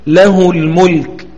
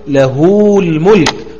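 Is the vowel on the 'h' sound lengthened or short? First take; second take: short; lengthened. First: The vowel after the h stays short. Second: The vowel after the h is drawn out long. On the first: The speaker calls it right. "فوجب الاقتصار على حركة الهاء دون إشباع" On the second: The speaker calls it wrong. "لا تقل"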